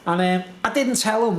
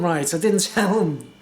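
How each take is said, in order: First: Didn't pushed up a little; stress on didn't. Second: A laugh breaks before tell, then tell is stressed; chuckle, then hit the word tell. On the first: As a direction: lean on the word didn't. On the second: Repeating to the camera, laughing on tell. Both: Shown as a demonstration.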